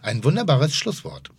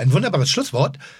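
First: The voice falls at the end, sounding final. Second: The voice stays up at the end, sounding unfinished. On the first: The conversation is over. The speaker calls it right. "wenn du die Tonalität richtig machst" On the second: Something more is still coming. The speaker calls it wrong. "klingt jetzt so, als ob da noch was kommt"

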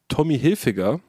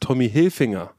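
First: The surname has no n before the g. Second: The surname has an n before the g. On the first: The speaker calls it right. "Obwohl gar kein N drin ist" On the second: The speaker calls it wrong. "das heißt Tommy Hilfinger"

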